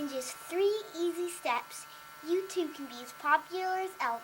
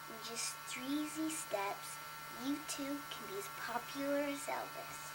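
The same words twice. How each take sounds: First: It is read like a TV infomercial pitch. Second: It is read in a plain voice.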